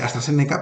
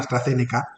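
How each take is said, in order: First: The z is said as an s sound. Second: The z is said as a th sound. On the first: "se habla con, con S, se pronuncia" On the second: "lo voy a hacer en español"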